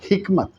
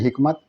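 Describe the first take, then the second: First: The h is made with strong throat effort. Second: The h is made lightly without effort. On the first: The speaker calls it right. "इसलिए इसके बोलने में और इसके बोलने में आपको मेहनत करना पड़ेगा" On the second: The speaker calls it wrong. "बगैर मेहनत के जैसे बोल रहे हैं हिकमत"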